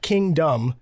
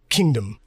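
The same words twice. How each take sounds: First: The second syllable has a full vowel. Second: The second syllable is reduced to a short dm. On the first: The speaker calls it wrong. "Not kingdom" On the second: The speaker calls it right. "Like DM, right? That's British. They close vowels together"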